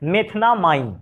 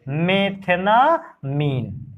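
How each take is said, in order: First: It is said the English way, ending in 'ine'. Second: It is said the Hindi way, ending in 'een'.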